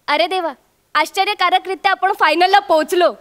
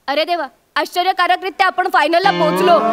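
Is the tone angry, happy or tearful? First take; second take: happy; tearful. First: It is said in a happy, joyful tone. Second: It is said tearfully, as if crying.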